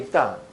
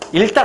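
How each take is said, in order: First: The cluster is pronounced with a k sound. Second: The cluster is pronounced with an l sound. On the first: The speaker calls it right. "익담이다" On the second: The speaker calls it wrong. "일당 아니고"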